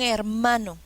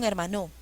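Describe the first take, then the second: First: The stress is on the middle syllable. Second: The stress is on the last syllable. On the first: The speaker calls it right. "Suena mejor" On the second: The speaker calls it wrong. "Probemos con la última sílaba"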